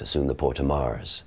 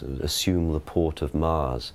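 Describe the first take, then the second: First: Faster delivery in an Original Pronunciation accent. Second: Slow, reverential delivery in a modern English accent. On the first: "It's much faster in OP" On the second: "with modern Shakespeare, it's often very reverential in the way that we pronounce it"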